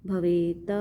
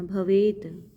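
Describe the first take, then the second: First: भवेत with a full vowel on त; the incorrect way, त said fully; wrong pronunciation. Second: भवेत ending in a clipped half त; correct halant. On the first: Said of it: "ऐसे नहीं पढ़ना". (गलत उच्चारण) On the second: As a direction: cut the final त short, with halant. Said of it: "हलंत है त पे". (हलंत सहित सही उच्चारण) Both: Shown as a demonstration.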